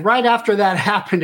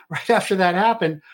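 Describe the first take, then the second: First: Laughing. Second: Said in the usual way. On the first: Real, not acted. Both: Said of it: "it was kind of funny".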